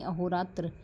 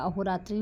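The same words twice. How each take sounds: First: अहोरात्र said ending on a bare त्र, no final vowel; teacher gives the right form अहोरात्र, cut off after र; correct spelling read out. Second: अहोरात्रि said with a final short i, रात्रि; teacher sounds out the wrong form अहोरात्रि, ending in -त्रि; wrong spelling read out. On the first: Teacher correcting students, saying अहोरात्र with no final i. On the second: Teacher showing students the wrong form अहोरात्रि with its final i. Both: Shown as a demonstration. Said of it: "अहोरात्रि नहीं".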